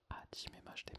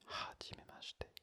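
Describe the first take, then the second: First: The first h is silent, not breathed. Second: The first h is breathed out audibly. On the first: The speaker calls it wrong. "ce n'est pas hajimemashite" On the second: The speaker calls it right. "mais hajimemashite, avec une sorte de H aspiré"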